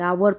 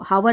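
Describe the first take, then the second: First: The word begins directly with a vowel sound. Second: The word begins with an audible H sound. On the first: The speaker calls it right. "आवर पढ़ते, एच silent है" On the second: The speaker calls it wrong. "इसको हावर नहीं पढ़ते"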